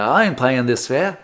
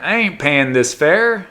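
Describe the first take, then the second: First: Badly faked Australian accent. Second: Slow, raised-pitch fare dodger quote; imagined fare dodger. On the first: Correcting the tram rider's voice, bad Australian accent. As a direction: attempt an Australian accent and miss. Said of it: "that's a bad Australian accent". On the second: Acted. Guy riding the tram free, slow defiant quote. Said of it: "well, he wouldn't talk like that".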